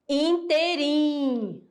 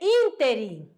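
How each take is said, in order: First: The stress is on the last syllable. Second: The stress is on the first syllable. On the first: The speaker calls it wrong. "colocando a palavra como oxítona" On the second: The speaker calls it right. "Ela é proparoxítona"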